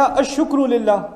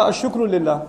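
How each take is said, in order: First: "الشکر للہ" drawn out slowly, syllable by syllable; deliberately slow "الشکر للہ"; slow teaching emphasis. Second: Said in the usual way. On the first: Shown as a demonstration. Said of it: "اگر قرآن کہتا". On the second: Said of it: "اگر قرآن میں لکھا ہوتا".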